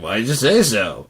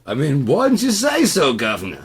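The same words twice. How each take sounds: First: Put-on mild British accent; a light British try. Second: Put-on high, loud British accent. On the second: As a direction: redo it as a proper British gent. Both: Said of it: "the British accent".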